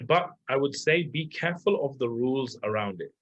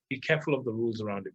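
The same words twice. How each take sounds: First: Said in the usual way. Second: Fast, quieter echo of "Be careful of the rules around it"; quick repeat. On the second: Shown as a demonstration. Coach repeating his warning to listeners, fast and quieter. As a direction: rattle the warning back quickly as an aside.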